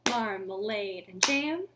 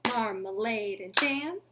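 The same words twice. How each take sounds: No difference in how they are said.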